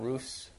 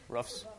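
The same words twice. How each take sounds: First: It is said in a standard accent. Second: It is said in a Wisconsin accent.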